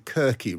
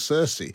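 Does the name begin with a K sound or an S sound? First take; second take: K sound; S sound. First: The name begins with a hard K sound. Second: The name begins with a soft S sound. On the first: This is probably how the ancient Greeks said it. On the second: This is how the name is said today.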